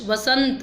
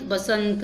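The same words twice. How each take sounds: First: वसंत starting with "v"; v sound. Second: बसंत starting with "b"; b sound. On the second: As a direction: close the lips for the b of बसंत. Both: Shown as a demonstration. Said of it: "बै और वै".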